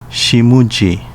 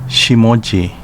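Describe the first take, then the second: First: The name is said with Okinawan sounds. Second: The name is said with Japanese sounds. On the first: This is the name's older native reading. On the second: This is the name's present-day reading. "current reading"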